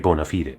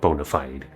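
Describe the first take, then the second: First: It is said differently from the usual English way. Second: It is said the usual English way. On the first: The speaker calls it right. "Should be bona fide" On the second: The speaker calls it wrong. "not bona fide"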